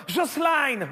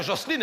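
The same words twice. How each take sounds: First: Mock Portuguese accent, Jocelyne as "Joss-line"; Christina Cordula. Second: Said in the usual way. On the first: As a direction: say "Jocelyne" high with a Portuguese twang ending "-aïne". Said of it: "un, un accent portugais". (« Jocelyne » aigu, accent portugais)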